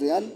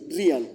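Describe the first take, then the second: First: The surname is said with a Spanish pronunciation. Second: The surname is said with an English pronunciation. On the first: This is how it is said in Spain. "Mi segundo apellido en España es real" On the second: This is how it is said in the United States and England. "en Estados Unidos y en Inglaterra me van a decir Real"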